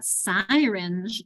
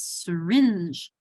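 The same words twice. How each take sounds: First: "syringe" slowly misread as "SIGH-rinj"; long I in SYRINGE. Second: "syringe" slowly as suh-RINJ; stress on second syllable. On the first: Teacher showing what it's not, "syringe" as "SIGH-rinj". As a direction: wrongly give "syringe" a full "sigh" start. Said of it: "it's not syringe". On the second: Teacher correcting the misreading, "syringe" stressed as suh-RINJ. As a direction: slide through "suh", land on "rinj" in "syringe". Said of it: "accent on my second syllable". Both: Shown as a demonstration.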